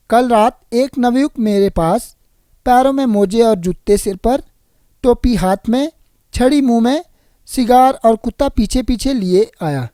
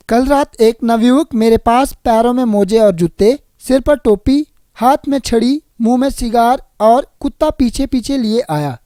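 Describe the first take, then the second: First: Wrongly group it as "टोपी हाथ में", "छड़ी मुंह में"; misplaced pauses. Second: Group it as "सिर पर टोपी", "हाथ में छड़ी"; pauses at commas. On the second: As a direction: pause after "जूते", "टोपी" and "छड़ी", lifting each. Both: Shown as a demonstration. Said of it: "अनुचित प्रयोग से अर्थ का अनर्थ".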